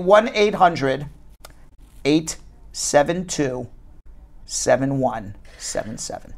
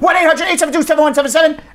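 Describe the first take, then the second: First: The number is read very slowly. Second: The number is read at a normal pace.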